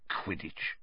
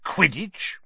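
First: Unvoiced, falling mutter of "Quidditch"; muttered under breath. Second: Voiced, rising, disbelieving "Quidditch?"; incredulous. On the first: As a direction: say "Quidditch" to yourself under your breath, puzzled. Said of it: "he muttered under his breath". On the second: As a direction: repeat "Quidditch?" aloud with a sharp upward question. Uncle repeats strange word aloud.

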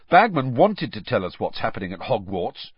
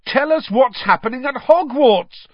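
First: Mildly grumpy complaint; understated sulky griping. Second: High, loud shout; urgent yell to someone leaving; bellowing. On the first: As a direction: grumble with a touch of resentment. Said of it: "he said grumpily". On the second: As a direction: bellow it out of a train window. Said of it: "Fred bellowed out of the window". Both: A narrator's reading.

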